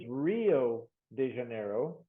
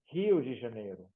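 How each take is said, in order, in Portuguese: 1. Rio começa com o som de R do inglês. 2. Rio começa com um som parecido com H. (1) "é melhor falar where is Rio de Janeiro" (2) "do que Rio de Janeiro"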